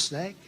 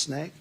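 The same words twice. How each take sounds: First: Soft, rising snake drop; quiet punch word. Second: Soft, rising snake again; quiet punch word. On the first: Rally speaker dropping the word snake as a quiet punch line. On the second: Rally speaker repeating snake quietly as a refrain. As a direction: whisper it like a refrain. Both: Acted.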